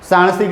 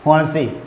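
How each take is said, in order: First: The word begins with an s sound. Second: The word begins with an h sound. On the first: This is the standard way of speaking. "સાણસી કહીએ" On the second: This is how Charotari dialect speakers say it. "એ લોકો શું કહે?"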